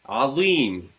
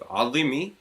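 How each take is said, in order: First: The vowel after the z is long. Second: The vowel after the z is short. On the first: The speaker calls it right. "makes it into two counts" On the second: The speaker calls it wrong. "instead of azimi"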